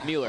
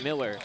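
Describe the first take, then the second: First: The first syllable sounds like 'mule'. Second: The first syllable sounds like 'mill'. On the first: The speaker calls it right. "but it's Mueller" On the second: The speaker calls it wrong. "I said Maddox Miller"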